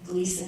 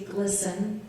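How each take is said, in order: First: The first vowel is a long 'ee' sound. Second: The first vowel is a short 'i' sound. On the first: The speaker calls it wrong. "we don't pronounce it correctly" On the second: The speaker calls it right. "it's supposed to be glisten, you know, rhyme with listen"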